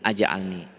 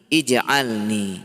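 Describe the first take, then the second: First: The word begins with an a vowel. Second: The word begins with an i vowel. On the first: The speaker calls it wrong. "tidak mungkin aj'alni" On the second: The speaker calls it right. "Ini ij'alni"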